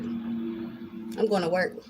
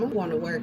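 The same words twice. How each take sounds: First: Drawn-out slow repeat. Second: Said in the usual way. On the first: Retold or imitated. Repeating to her son she's busy, slowly drawn out. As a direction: stretch each word out deliberately.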